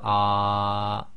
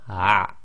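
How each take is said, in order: First: The sound is drawn out slowly. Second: The sound is cut off quickly. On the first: "slowing it right down" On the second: "quickly it will be"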